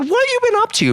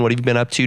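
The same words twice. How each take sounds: First: It is said with lively, varied intonation. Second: It is said with flat, plain intonation. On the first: The asker sounds like he actually cares. The speaker calls it right. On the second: The asker sounds like he is just making conversation. The speaker calls it wrong.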